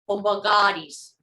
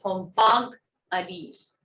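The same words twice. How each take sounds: First: The 'ah' vowel syllable carries the stress. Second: The 'ah' vowel syllable is not stressed. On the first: It is the past five negative form. "So the ah is stressed" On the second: It is the non-negative form. "The one down here"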